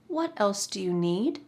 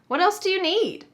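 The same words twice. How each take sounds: First: It sounds like a sincere question wanting an answer. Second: It sounds like a statement, not expecting an answer. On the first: The speaker wants to know what else is needed. "If you sincerely ask" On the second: Nothing else is needed. "when you say it like this, ... Notice that inflection"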